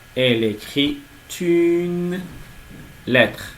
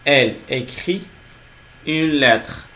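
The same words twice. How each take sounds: First: A T sound links écrit to une. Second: Écrit and une are said without a linking T. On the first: The speaker calls it wrong. "on ne doit pas dire" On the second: The speaker calls it right. "Après un verbe, on ne peut pas faire une liaison"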